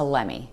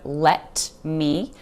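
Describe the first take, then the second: First: The two words are shortened and blended together. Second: Both words are pronounced clearly and separately. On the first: "we're going to reduce that to let me" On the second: "instead of let me"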